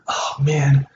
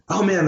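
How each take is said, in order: First: It sounds sad, slow and sympathetic. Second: It sounds happy and upbeat. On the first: The news is bad. "Notice the tone, right? You're slowing down" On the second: The news is good. "that's wonderful"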